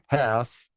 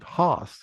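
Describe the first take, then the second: First: The vowel is a short 'a' as in 'pass'. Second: The vowel is a long German-style 'ah'. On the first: This is how the name is normally said here. The speaker calls it right. "but we say Hass" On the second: This is how the store said the name. The speaker calls it wrong. "they'd pronounce it Haas"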